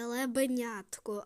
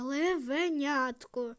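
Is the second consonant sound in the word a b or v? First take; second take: b; v. First: The second consonant is a b sound. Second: The second consonant is a v sound. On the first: The speaker calls it wrong. "Не лебенятко" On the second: The speaker calls it right. "а левенятко"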